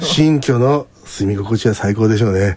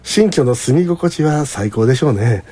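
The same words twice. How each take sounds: First: It is said in a nasty, sarcastic way. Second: It is said in a plain, sincere way. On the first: The speaker resents or mocks the new home. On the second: The new home is genuinely wonderful.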